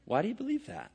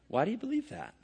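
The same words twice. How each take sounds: First: The question sounds humble and genuinely curious. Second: The question sounds humble and genuinely curious.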